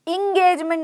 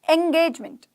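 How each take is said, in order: First: The word begins with an 'ih' sound. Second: The word begins with an 'eh' sound. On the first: The speaker calls it wrong. "इंगेजमेंट नहीं है" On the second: The speaker calls it right. "एंगेजमेंट मतलब कि सगाई होना किसी की"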